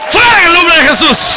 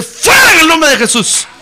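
First: Even louder, higher repeat of the rebuke; rebuking shout. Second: Loud, higher commanding rebuke; rebuking shout. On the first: Preacher repeats the rebuke to the congregation, shouting harder. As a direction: drive it out, full voice. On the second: Preacher rebukes the enemy before the congregation, shouting. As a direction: cast the demon out with a shout. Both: Acted.

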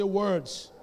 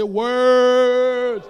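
First: Said in the usual way. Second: Very loud, long-drawn WORDS; bold. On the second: Shown as a demonstration. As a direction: belt it out boldly to rouse the congregation. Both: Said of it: "Come on, say that boldly".

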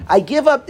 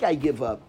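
First: Said in the usual way. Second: Defeated "I give up". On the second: Shown as a demonstration. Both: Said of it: "is one you like".

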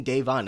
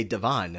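First: "Davon" as DAY-von, long A; DAY-von pronunciation. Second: "Devon" as duh-VON, short first syllable; de-VON pronunciation. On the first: Shown as a demonstration. Host correcting a podcaster in thought, "Davon" as DAY-von. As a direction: say "Davon" with first syllable "day". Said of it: "How are you not getting Davon". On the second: Retold or imitated. Host quoting a podcaster's error, "Devon" as duh-VON. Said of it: "and they say Devon".

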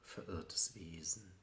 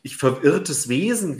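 First: Hushed poetic whisper. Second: Raised, lively speaking voice; louder, animated. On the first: Acted. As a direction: whisper it as a lost soul. Poem line whispered, later spoken loud. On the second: Real, not acted. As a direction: say it with emphatic energy. Same words said loudly in talk.

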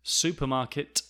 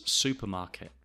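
First: "Supermarket" with the last T released; crisp T ending on "Supermarket"; careful final T. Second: "supermarket" ending in "-ke" with no T; dropped final T. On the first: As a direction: sound the final T clearly. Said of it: "the T at the end of words". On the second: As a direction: stop "supermarket" short before the T. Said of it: "do not pronounce". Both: Shown as a demonstration.

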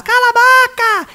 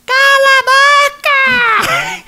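First: High, stretched shout; mom shouting. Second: Very high, squawking parrot voice with laughter; parrot imitation. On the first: Retold or imitated. Mother yelling at the noisy parrot, high stretched shout. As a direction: snap it out like an impatient mother. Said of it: "Gritava lá dentro de casa". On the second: Parrot mimicking the mother at home, squawky high screech. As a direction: screech it like a parrot copying mom. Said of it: "o papagaio fazia assim".

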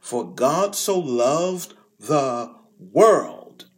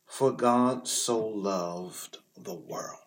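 First: Slow and louder, "so" stressed; proclaimed. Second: "For God so loved the world" drawn out slow and deliberate; slow emphatic quote. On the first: Preacher voicing Jesus' radical words, slow and ringing. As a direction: ring out "For God so loved the world" with weight. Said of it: "When Jesus utters the words". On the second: Preacher making the congregation notice the verse, slow and weighty. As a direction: savour each word of the verse. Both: Shown as a demonstration.

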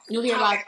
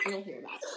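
First: Said in the usual way. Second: Breathy whispered repeat. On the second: Shown as a demonstration. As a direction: whisper it like a secret.

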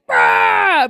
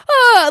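First: Deep mock yell of horror; a low, tough man's mock scream; lower yell. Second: High, louder frightened cry; higher scared yelp. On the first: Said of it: "they're like". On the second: Retold or imitated. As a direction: yelp like you're truly scared. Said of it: "he's just like".

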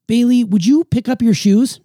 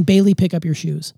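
First: Asking question. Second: Plain command. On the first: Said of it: "I would always ask questions". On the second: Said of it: "instead of saying". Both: Shown as a demonstration.

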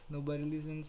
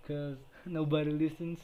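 First: Said in the usual way. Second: Louder, laughing through the words. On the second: Real, not acted. Joking that nobody listens to his podcast, laughing. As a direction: laugh at your own bad luck.

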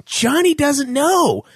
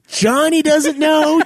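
First: Johnny doesn't know, slowly stressing know; exasperated slow reply to a chattering old lady; slow emphatic. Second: Johnny doesn't know, slower, know stretched; exasperated slow reply repeated; slow emphatic. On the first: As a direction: lay it out slowly, each word weighted. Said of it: "I'm like". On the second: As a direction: drag it out to make the point. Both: Pretend.

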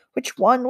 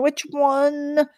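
First: Said in the usual way. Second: Higher, anxious and hushed; panicked. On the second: A narrator's reading. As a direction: ask it in rising panic. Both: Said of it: "Kull panicked".

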